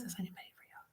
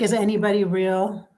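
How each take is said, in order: First: Barely audible, voiceless murmur; very soft, almost to yourself; hushed repeat. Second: Said in the usual way. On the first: Retold or imitated. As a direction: let the question fade to a whisper. Question repeated, fading away.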